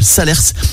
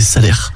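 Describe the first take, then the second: First: The final s sound is pronounced. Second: The final s sound is silent. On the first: The speaker calls it wrong. "c'est un défaut de langage de ma part" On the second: The speaker calls it right. "Le nom officiel d'un point de vue phonétique"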